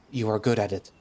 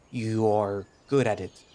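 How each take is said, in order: First: Said in the usual way. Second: Slow, careful attempt at "you are good at it", word by word; laboured self-correction. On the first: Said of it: "That was right". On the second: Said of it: "don't have to talk like that".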